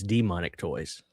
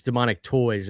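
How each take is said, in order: First: Demonic Toys with a stressed DEE at the start; "Demonic Toys" said as DEE-monic, front-stressed. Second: Demonic Toys with the weight on TOYS; "Demonic Toys", stress late, on Toys; wrong emphasis. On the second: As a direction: say "Demonic Toys" leaning on the word Toys. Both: Shown as a demonstration. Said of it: "put the emphasis on the D".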